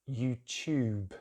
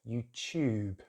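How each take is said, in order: Both takes have the same delivery.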